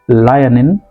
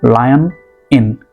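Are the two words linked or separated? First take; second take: linked; separated. First: The n links smoothly into the next word. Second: The two words are said separately. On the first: The speaker calls it right. "that would be correct" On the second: The speaker calls it wrong. "it's incorrect"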